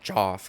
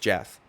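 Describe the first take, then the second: First: The name is said with an 'aw' vowel. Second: The name is said with an 'eh' vowel. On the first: The speaker calls it wrong. "his name's not Joff" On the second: The speaker calls it right. "his name's Jeff"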